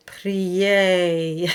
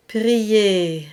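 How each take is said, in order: First: Prier slowed, mouth opened into a diphthong. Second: Prier with the ending kept small and closed; prier, no diphthong at the end; closed vowel. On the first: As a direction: show the wrong, wide prier. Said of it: "And if you open, you would get". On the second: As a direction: prier with a pure, narrow final vowel. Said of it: "the A stays almost in the same space as I". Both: Shown as a demonstration.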